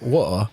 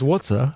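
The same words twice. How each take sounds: First: The middle T is dropped completely. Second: The middle T is pronounced hard and clear. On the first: "without the T at all" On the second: "with a hard T"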